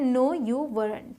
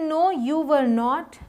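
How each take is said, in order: First: Were and not are merged into one syllable. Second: Were and not are said as separate full words. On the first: "contractions भी use कर सकते हैं" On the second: "बिना contractions के"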